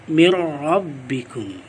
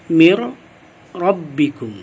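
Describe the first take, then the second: No difference in how they are said.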